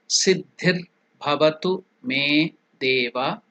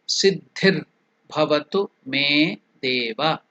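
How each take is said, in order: No difference in how they are said.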